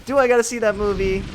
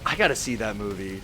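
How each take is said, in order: First: "Do I gotta see that movie?" higher and louder; self-questioning. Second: Said in the usual way. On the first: Acted. Questions own statement just made.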